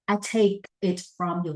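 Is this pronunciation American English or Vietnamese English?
American. The vowel in 'take' sounds like the letter A. The speaker calls it right. "I is like I take it from you"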